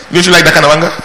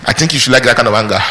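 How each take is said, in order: First: Louder, higher, laughing rhetorical question; laughing repeat. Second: Said in the usual way. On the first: Real, not acted. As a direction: toss it back to the crowd with a laugh.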